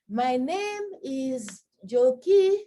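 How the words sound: It sounds hesitant and apologetic.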